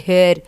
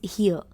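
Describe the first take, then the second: First: The vowel sounds like the one in 'hair'. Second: The vowel sounds like the one in 'hear'. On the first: The speaker calls it wrong. "We don't say here" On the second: The speaker calls it right. "it is here"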